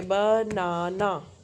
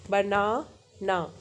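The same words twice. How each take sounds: First: बनाना stretched as ब-ना-ना; clapped-out syllables. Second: बनाना split as बना, pause, ना; ब not separate. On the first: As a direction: draw out each beat of banana evenly. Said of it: "या ताली बजाओगे". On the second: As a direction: join ब to the first ना, then a separate ना. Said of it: "ब अलग से नहीं है". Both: Shown as a demonstration.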